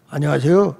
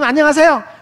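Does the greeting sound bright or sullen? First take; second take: sullen; bright. First: It is said in a flat, sullen voice. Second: It is said in a bright, high, cheerful voice. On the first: The greeting feels off-putting. The speaker calls it wrong. "이게 재수 없어" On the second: The greeting feels joyful and welcoming. The speaker calls it right. "쏠음으로"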